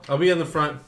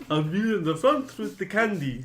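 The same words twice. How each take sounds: First: Said in the usual way. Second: Higher-pitched monster character voice. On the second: Acted. Player offers to lead with candy, higher character voice. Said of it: "you guys in character".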